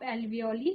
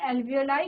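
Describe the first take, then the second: First: The word ends with an 'ee' sound. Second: The word ends with an 'eye' sound. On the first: This is how it can be written in Hindi. "Hindi में आप एल्वियोली इसको लिख सकते हैं" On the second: This is how it is pronounced in English. "English में एल्वियोलाई इसका pronunciation होता है"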